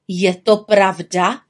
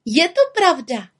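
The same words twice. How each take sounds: First: Slow, stern head-witch question; measured, strict interrogation. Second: High, proud confirmation; proud little-witch exclamation; calling out. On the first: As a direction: ask it slowly and sternly. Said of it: "ptá pokaždé přísněji". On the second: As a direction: confirm it in a high, piping call. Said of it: "volala malá čarodějnice". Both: A narrator's reading.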